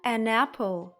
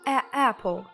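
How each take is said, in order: First: An n sound links the article to apple. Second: The article is a plain vowel with no n. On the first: The speaker calls it right. "Ось тепер гарно" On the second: The speaker calls it wrong. "Негарно звучить"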